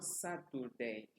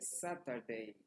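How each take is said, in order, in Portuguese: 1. A vogal do meio soa como 'oo'. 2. A vogal do meio soa como 'ah'. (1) "não Saturday. Estaria errado" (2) "o U aqui é pronunciado como se fosse A"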